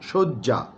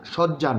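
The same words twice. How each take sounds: First: The first vowel is a closed 'oh' sound. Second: The first vowel is an open 'aw' sound. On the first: The speaker calls it right. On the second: The speaker calls it wrong.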